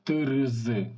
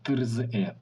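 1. Звук вимовляється з окремими r і z. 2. Звук вимовляється з окремими r і z.

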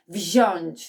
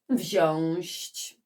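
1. Słowo kończy się zwykłym ć, bez ś. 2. Słowo kończy się dodanym ś przed ć. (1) "poprawna forma tego wyrazu nie uwzględnia głoski ś" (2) "które kiedyś wypowiadałam inaczej"

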